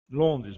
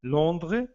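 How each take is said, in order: First: "Londres" said the Portuguese way, with a full n and a final s; Portuguese pronunciation. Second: "Londres" said the French way, nasal o and no final s; French pronunciation. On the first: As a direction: give "Londres" its Portuguese sound, "LON-dres". ("Londres" com pronúncia portuguesa, com o s final) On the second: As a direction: say "Londres" as a French speaker would, with a silent final s. ("Londres" com pronúncia francesa, sem o s final) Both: Shown as a demonstration. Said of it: "Lo, o".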